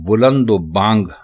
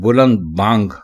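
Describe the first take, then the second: First: An 'o' vowel links the two words. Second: No linking vowel comes between the two words. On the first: The speaker calls it wrong. "बुलंदो बांग गलत है" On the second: The speaker calls it right. "बुलंद बांग दुरुस्त है"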